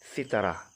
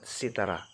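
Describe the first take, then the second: First: The word begins with a TH sound. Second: The word begins with an S sound. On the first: The speaker calls it right. "C is pronounced T H" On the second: The speaker calls it wrong. "it's not cítara"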